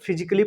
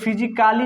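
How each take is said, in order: First: No vowel is heard between the 'c' and 'ly'. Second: A full 'a' vowel is heard before 'ly'. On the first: The speaker calls it right. "पढ़ेंगे" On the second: The speaker calls it wrong. "नहीं पढ़ेंगे"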